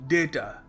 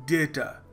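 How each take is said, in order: The two takes are said the same way.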